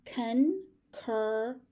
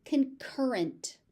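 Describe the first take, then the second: First: "Concurrent" very slowly, in separate syllables. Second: Said in the usual way. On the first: Shown as a demonstration. Teacher breaking a word down for learners, syllable by syllable. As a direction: break "Concurrent" into three parts with pauses.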